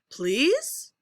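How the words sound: The pitch rises on the word. "We'll do rising"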